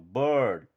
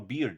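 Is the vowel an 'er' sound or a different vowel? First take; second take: er; different vowel. First: The vowel is an 'er' sound. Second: The vowel is not an 'er' sound. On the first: The speaker calls it right. "eu falo bird" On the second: The speaker calls it wrong. "eu não falo beard"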